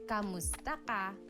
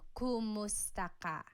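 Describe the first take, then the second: First: The first syllable has an a vowel. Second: The first syllable has a u vowel. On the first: "like it's a K A sound" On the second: "So it's spelled K U M"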